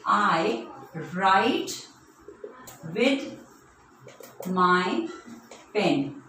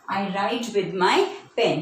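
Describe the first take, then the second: First: Each word alone, long gaps between; word-by-word dictation. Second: Said in the usual way. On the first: Shown as a demonstration. Teacher giving children a pen sentence, slow word-by-word dictation. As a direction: dictate it slowly, word after word. Writing example sentence on board.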